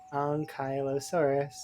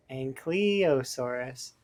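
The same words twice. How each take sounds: First: "Ankylosaurus" starting "onk", then "kai": onk-KAI-lo-saurus; Ankh pronunciation. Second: "Ankylosaurus" starting with a short-a "ank", then "klee-oh"; alternative pronunciation. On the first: Streamer tries the dinosaur word their own way, "onk" pronunciation. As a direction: say "Ankylosaurus" with a broad ah in the first syllable. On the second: Streamer tests the other way for chat, slow "ank" pronunciation. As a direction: slowly sound out "Ankylosaurus" as ANK-klee-oh-saurus. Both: Shown as a demonstration. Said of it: "I would say Ankh".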